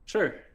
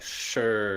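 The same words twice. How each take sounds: First: It sounds neutral, neither warm nor cold. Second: It sounds negative and reluctant.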